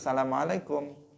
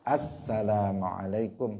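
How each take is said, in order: First: It begins straight with 'salamu', without 'as'. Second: It begins with the 'as' sound before 'salamu'. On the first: The speaker calls it wrong. "langsung gitu" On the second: The speaker calls it right. "mestinya ada assalamualaikum"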